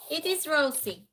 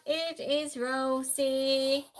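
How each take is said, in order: First: Said in the usual way. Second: Slow, stretched answer announcement; drawn-out reveal. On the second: Real, not acted. Host revealing the robot maid's name, drawn out. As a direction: draw out every word of the reveal.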